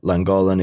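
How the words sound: The name is said with an English pronunciation. "You'd say it Llangollen if you're English"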